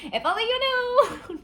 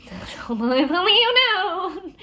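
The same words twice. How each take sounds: First: Even higher, cracking into a laugh; giggling mock tragedy; laughing through it. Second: Slow, much higher and louder, drawn out; milk it like a tortured hero; hammed-up mournful sigh of a line; mock tragic. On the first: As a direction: lose it halfway through the melodrama. Repeat, breaking into laughter. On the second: Jax's dramatic brooding line.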